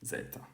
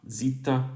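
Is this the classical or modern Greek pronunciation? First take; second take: classical; modern. First: It is pronounced the classical Greek way. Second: It is pronounced the modern Greek way. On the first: "classical Greek zeta" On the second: "zeta in modern Greek"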